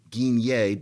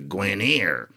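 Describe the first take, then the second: First: The name is said with French sounds. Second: The name is said with English sounds. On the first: This is the original form of the name. "that word Guinier" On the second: English speakers have reshaped the name over time. "distorted by Anglophone mouths into Guinier"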